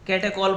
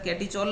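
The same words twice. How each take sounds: First: Catechol said "KET-e-kol", with a k sound; correct pronunciation. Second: Catechol mispronounced as "KET-ee-chol"; wrong pronunciation. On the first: Teacher showing students the right reading, catechol with a hard k. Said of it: "catechol पढ़ा जाता है". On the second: Teacher warning students off a mistake, catechol mispronounced with ch. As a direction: put a ch sound in catechol, as in "chol". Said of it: "तो catechol नहीं". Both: Shown as a demonstration.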